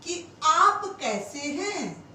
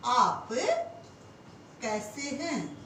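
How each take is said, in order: First: Slow dictation. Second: Slow repeat. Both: Shown as a demonstration. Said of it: "हम कहें".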